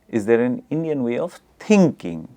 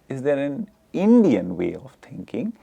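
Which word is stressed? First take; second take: thinking; Indian. First: The stress falls on the word thinking. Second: The stress falls on the word Indian. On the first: "the stress is on thinking" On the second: "the stress is on Indian"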